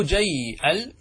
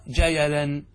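First: "جيل" drawn out as jayyy-'al; sukun on ya. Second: "جيلا" slowly as ja-ya-lan, no hamza; measured ja-ya-lan for "جيلا"; vowel moved onto ya. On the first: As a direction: hold the y in "جيل" before the glottal stop. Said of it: "بسكون الياء". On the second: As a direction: give the y in "جيلا" a short a. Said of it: "نقلت حركة الهمزة إلى الياء". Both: Shown as a demonstration.

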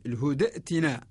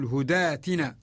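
First: الهدأتنا with a glottal stop after the short da; original form with hamza. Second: الهداتنا with long aa after the dal; hamza as long aa. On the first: Teacher showing the original form, الهدأتنا with hamza sounded. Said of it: "الأصل". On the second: Teacher showing the Warsh rule, الهداتنا with long aa replacing hamza. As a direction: stretch the daa in الهداتنا, no glottal stop. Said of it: "للفتحة على الدال". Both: Shown as a demonstration.

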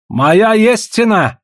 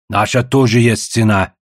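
First: High, drawn-out insistent cry; exclaiming. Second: Echoing. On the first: Trader insisting he has a price, exclaiming. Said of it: "воскликнул Гал". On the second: Second trader backing the first, echoing. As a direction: back up your rival in a level voice. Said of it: "вторил Чензо". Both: A narrator's reading.

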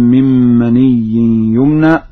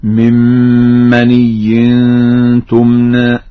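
First: Said in the usual way. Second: Slow, loud recitation with "tumna" for تمنى; feminine ta. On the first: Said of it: "قرأ ورش بتاء التأنيث". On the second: Shown as a demonstration. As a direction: start تمنى on t, stretching the nasal before it. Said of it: "قرأ ورش بتاء التأنيث هكذا". (تمنى بتاء التأنيث)

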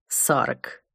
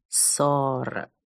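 First: Low, drawn out. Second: Syllables drawn out, lower, softer; slow motion. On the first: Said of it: "потом повторила, растягивая слоги". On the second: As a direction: stretch every syllable of «Сорок» out slowly. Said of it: "растягивая слоги". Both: Acted.

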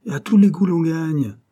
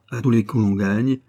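First: High, louder mock barker call on "tous les coups"; barker's cry. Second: Said in the usual way. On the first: Boy imitating the game owner shouting his slogan, mock barker call. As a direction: sell "Et à tous les coups l'on gagne" like a stall keeper. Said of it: "rien qu'à crier". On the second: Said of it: "narration of the same slogan".

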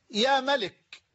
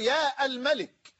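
First: يا ملك as "ya Malik"; vocative without article. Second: يا الملك as "yaa al-Malik"; wrong vocative with article. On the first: Teacher shows the correct form, يا ملك without article. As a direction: join يا directly to ملك. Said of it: "بل تقول". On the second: Teacher shows what not to say, يا الملك with article. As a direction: sound the "al" after long يا in الملك. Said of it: "لا تقول". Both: Shown as a demonstration.

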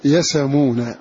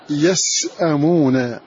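First: "يسمون" with the hamza gone and its vowel moved onto the S, yasamūna; Hamza's pause reading "يسمون", the stop dropped. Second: "يسأمون" said slowly with the glottal stop kept after the S; "يسأمون" with its full hamza, unchanged; original with hamza. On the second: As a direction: read "يسأمون" as written, hamza intact, slow. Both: Shown as a demonstration. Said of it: "فنقول".

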